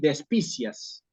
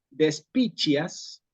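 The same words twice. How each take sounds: First: It is read the way Spanish would read it. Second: The c before i sounds like ch. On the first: "esta tercera forma no existe. Eso es la lectura en español" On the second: "como decimos en el latín eclesiástico"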